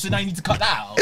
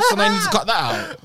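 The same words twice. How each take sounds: First: Said in the usual way. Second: High, fast, laughing through it. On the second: Real, not acted. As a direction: crack up while saying it. Same line repeated laughing.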